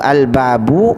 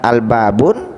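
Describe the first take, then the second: First: The word ends on a plain u vowel. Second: The word ends with an added n sound. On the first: The speaker calls it right. "baris akhirnya baris dhammah" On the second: The speaker calls it wrong. "tidak al-babun"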